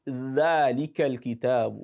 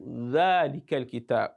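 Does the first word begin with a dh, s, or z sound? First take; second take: dh; dh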